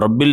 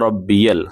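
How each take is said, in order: First: The word is said in two syllables. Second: The word is said in three syllables. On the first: The speaker calls it wrong. "रब्बिल ना कहें" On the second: The speaker calls it right. "बल्कि रब्बियल"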